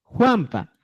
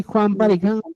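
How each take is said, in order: First: Juanpa dicho despacio, marcando la pa; Juanpa slow. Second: Said in the usual way. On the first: Shown as a demonstration. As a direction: alarga Juanpa para que se oiga la terminación. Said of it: "Fíjate". (pronuncia Juanpa lento y claro) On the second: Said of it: "Fíjate, Juanpa".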